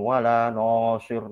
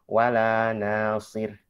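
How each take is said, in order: First: The vowel after the n is heavy and thick. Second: The vowel after the n is thin and light. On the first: The speaker calls it wrong. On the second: The speaker calls it right.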